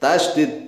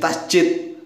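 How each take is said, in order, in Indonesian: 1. Huruf tengahnya bunyi 'd'. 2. Huruf tengahnya bunyi 'j'. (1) "Mengucapnya yang benar tasydid" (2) "Salah ngucap tuh"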